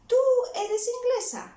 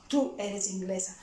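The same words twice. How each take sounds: First: The voice rises at the end like a question. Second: The voice falls at the end like a statement.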